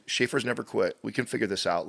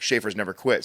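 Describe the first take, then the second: First: Put-on softer, soothing encouragement to a small child; gentle coaching. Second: Said in the usual way. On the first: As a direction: calmly reassure a frustrated kid that Schaefer's never quit. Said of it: "I'll say that again in a moment like that when he starts to get frustrated". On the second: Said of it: "I'll say that again in a moment like that".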